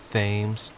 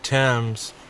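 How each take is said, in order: First: The name is said the local American way. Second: The name is said the British way. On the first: The speaker calls it right. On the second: The speaker calls it wrong.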